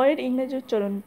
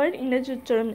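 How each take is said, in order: Both takes have the same delivery.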